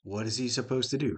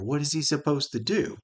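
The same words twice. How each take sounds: First: Said in the usual way. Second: "do" punched high and exasperated; exasperated stress on do. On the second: Shown as a demonstration. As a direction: land hard on "do" in disbelief. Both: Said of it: "Heck, he's a blind lawyer".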